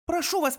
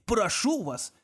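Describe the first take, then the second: First: Put-on higher, pleading girl's "Прошу вас". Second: Mocking echo. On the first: Girl begs Kong to spare the guard, pleading. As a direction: beg him, voice up high. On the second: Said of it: "удивлённо воскликнул Конг". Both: A narrator's reading.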